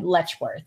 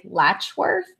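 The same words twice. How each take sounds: First: Slow Letchworth, first syllable LETCH with a short E; pronounced letch. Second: Latchworth, first syllable just like latch; pronounced latch. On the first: Teaching co-host the place name, slow Letchworth with E. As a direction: say Letchworth with an E as in let. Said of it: "and then". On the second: Explaining a place name to co-host, Latchworth with latch vowel. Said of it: "think, like". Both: Shown as a demonstration.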